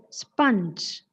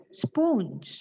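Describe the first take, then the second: First: Sponge as SPUNJ, pure short vowel; correct pronunciation. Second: Sponge as SPOHNJ; long O in sponge, drawn out slowly; common mispronunciation. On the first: Teacher reading the symbols, sponge slowly as SPUNJ. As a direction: say sponge slowly to rhyme with lunge. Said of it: "correct pronunciation of the word". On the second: Teacher showing how we pronounce it, sponge as SPOHNJ. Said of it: "commonly heard mispronunciation of the word". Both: Shown as a demonstration.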